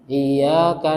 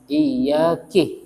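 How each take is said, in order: First: The final syllable has an A vowel. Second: The final syllable has an I vowel. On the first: Only you do we worship. The speaker calls it right. "kahnya fathah" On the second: It addresses a woman. The speaker calls it wrong. "Lah ini batal"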